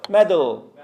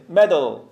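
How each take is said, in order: No difference in how they are said.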